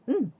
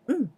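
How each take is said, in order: No difference in how they are said.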